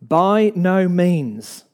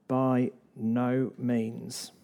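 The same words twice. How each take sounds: First: Slow, louder, every word weighted; decisive answer. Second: Slow and much softer, each word set apart; quiet emphatic answer. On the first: Paul flatly refusing the idea, slow and emphatic. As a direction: land each word of "By no means" firmly and slowly. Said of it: "Paul answers that question decisively". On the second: Preacher answering temptation, hushed and slow. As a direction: drop the voice and lay down "By no means" slowly. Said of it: "Paul is emphatic". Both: Acted.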